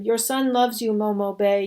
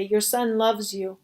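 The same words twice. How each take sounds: First: Plain-paced, lightly grieving words to the dead woman; grieving farewell. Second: Mild sob. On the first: Pink telling the dead Momo Bay he loves her. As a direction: say it plainly, first time through. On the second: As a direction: let the repeat sink slowly into grief. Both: Acted. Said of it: "He sobbed as he kissed her".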